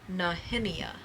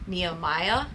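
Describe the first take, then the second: First: The name is said with a Hebrew pronunciation. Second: The name is said with an English pronunciation. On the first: "it is a Hebrew name and it is pronounced" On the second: "is how a lot of people pronounce it in English"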